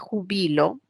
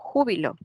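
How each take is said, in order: First: The stress is on the second syllable. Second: The stress is on the first syllable. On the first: The speaker is retiring now. "Aparece el acento en tres posiciones" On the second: It names a feeling of great joy. "En esta palabra hay una intensidad, hay un acento"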